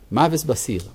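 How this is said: Ashkenazi style, with 's' in the last word. "היה ביטוי בליטה, בישיבות בליטה"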